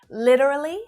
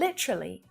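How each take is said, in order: First: The word is said with four syllables. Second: The word is said with three syllables. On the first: "with four syllables" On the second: "with three"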